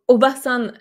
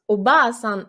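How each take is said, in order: First: The vowel after b is short. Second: The vowel after b is lengthened. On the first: It means aunt. "la tante" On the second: It means grandmother. "la grand-mère"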